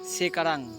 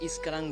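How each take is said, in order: First: The word begins with an s consonant sound. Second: The word begins with an added i vowel sound. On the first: "সেকারান মানে এখন" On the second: "কিন্তু আমরা ইস্কারাং বলি"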